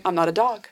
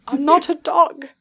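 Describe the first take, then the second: First: Lightly acted grumble; grumbling. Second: Higher-pitched put-on protest; insistent protest. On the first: GM as Stuart objecting to being called a dog, grumbling. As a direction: grumble it under the breath, mildly. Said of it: "Stuart is just grumbling". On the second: GM as Stuart insisting he is no dog, protesting. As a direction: repeat it higher, as an indignant objection. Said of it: "he keeps saying".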